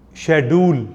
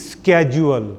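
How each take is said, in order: First: Schedule is said in a Pakistani English accent. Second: Schedule is said in an American English accent.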